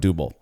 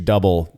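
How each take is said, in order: First: It sounds like a fancier, foreign-style pronunciation. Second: It sounds like the plain American English word. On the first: The speaker calls it wrong. "I was saying it wrong" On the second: The speaker calls it right. "pronounced double, like you would say it in America"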